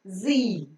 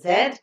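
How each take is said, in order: First: It is said the American way, as 'zee'. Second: It is said the British way, as 'zed'.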